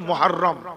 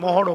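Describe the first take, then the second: First: It is said as 'Muharram' with a doubled r. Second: It is said loosely as 'Mohorom' with a single r. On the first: The speaker calls it right. "উচ্চারণ হলো মুহররম" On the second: The speaker calls it wrong. "আমরা বলি মহরম, মহরম নয়"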